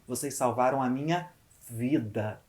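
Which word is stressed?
vida. The word vida carries the emphasis. It was a life saved, not a job or file. "Eu valorizo a palavra vida"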